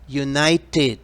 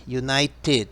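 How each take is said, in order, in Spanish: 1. La palabra termina con un sonido 'ted' claro. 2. La palabra termina con un sonido 'ted' claro.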